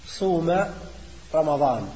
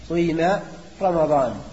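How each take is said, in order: First: The verb has a pure u vowel. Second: A short u glides into a long i. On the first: "إخلاص الضم" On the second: "الإشمام... تنطق بضمة قصيرة يتلوها كسرة طويلة"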